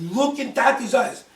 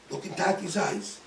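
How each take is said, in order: First: Loud, higher, slow command; commanding call. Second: Said in the usual way. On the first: Retold or imitated. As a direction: call out forcefully, stretching the words. Repeats command to screaming daughter.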